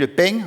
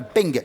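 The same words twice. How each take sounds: First: The word ends with a nasal sound, no released g. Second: The word ends with a fully released g sound. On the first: The speaker calls it right. "c'est comme si on allait faire un gueux, ... au dernier moment, on s'arrête" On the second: The speaker calls it wrong. "on dit pas le peng"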